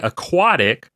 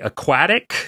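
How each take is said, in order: First: The word is said in an American pronunciation. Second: The word is said in a British pronunciation. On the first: "In America, we say aquatic" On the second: "I read here that it's actually aquatic"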